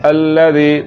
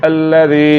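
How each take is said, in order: Both takes have the same delivery.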